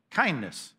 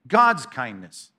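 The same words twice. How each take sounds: First: Said in the usual way. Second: "God's kindness" slow, each word leaned on; stress on God's kindness. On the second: Shown as a demonstration. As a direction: draw out "God's kindness" slowly and weightily.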